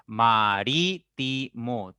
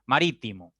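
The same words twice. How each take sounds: First: Ma-rí-ti-mo spoken slowly, each syllable split; teacher slowly splitting "marítimo" into its syllables. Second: Said in the usual way. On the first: Shown as a demonstration. Teacher to class, slowly breaking "marítimo" into syllables. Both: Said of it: "si ustedes pronuncian pausadamente".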